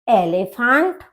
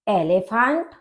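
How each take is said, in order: No difference in how they are said.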